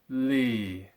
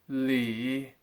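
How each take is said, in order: First: The pitch falls and stays low. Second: The pitch falls, then rises again. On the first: "I'll say each one as a fourth tone" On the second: "and then I'll say it as a double fourth tone"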